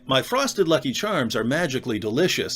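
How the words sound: It is said in an American accent.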